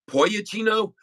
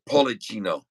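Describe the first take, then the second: First: The middle consonant is a Y sound. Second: The middle consonant is an L sound. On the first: The speaker calls it wrong. "It's not Poyachino because t- sometimes two L's can be a Y" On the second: The speaker calls it right. "I think it's Policino"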